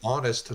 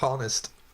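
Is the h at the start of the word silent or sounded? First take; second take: silent; sounded. First: The h at the start is silent. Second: The h at the start is sounded. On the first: The speaker calls it right. "it's honest" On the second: The speaker calls it wrong. "not honest"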